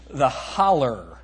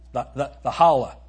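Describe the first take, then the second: First: The word ends in an 'er' sound. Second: The word ends in an open 'ah' vowel.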